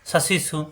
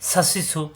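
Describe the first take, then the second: Both takes have the same delivery.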